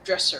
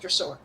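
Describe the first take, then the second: First: The last syllable has a weak 'er' vowel. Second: The last syllable has a full 'or' vowel. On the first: "Instead of dresser" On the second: "it was dressor"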